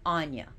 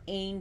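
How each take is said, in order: First: The name is said as Anya. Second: The name is said as Ain. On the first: The speaker calls it right. "That is the correct pronunciation of this goddess's name" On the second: The speaker calls it wrong. "some people pronounce her Annie or Ain, but those are in totally one hundred percent incorrect"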